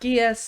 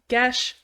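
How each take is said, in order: First: It is one syllable ending in s. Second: It is one syllable ending in sh. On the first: The speaker calls it wrong. "not Gies" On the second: The speaker calls it right. "it's pronounced Gesh"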